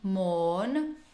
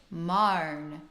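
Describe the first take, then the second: First: The vowel sounds like 'or'. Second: The vowel sounds like 'ar'. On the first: "instead of saying mourn" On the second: "the vowel does change slightly too into marn"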